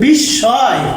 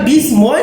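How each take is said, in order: First: The s is doubled and no m is heard. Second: The m sound is pronounced after the s. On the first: The speaker calls it right. "এটা হলো বিস্ময়, কারণ ময়ের উচ্চারণ দ্বিত্ব হয়ে যায়" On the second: The speaker calls it wrong. "অনেকে পরে এটারে সাউন্ড করে বিস্ময় বলে, এটা বিস্ময় না"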